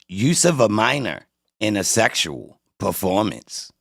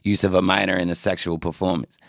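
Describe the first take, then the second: First: It is read in an exaggerated, dramatic style. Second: It is read in a flat, ordinary style. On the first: It is read for comic effect. The speaker calls it right. "That's why you gotta read it like that" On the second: It lacks the same impact. The speaker calls it wrong. "if I would have said it regularly"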